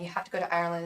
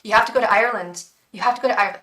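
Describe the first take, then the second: First: Said in the usual way. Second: Put-on fast, louder, deliberately terrible Irish accent on "You have to go to Ireland"; hammed-up mock Irish brogue; bad Irish accent. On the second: Beckett's spirit urging her to Ireland, in a terrible Irish accent. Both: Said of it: "the worst Irish accent".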